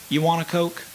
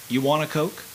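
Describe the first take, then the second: The two takes are said the same way.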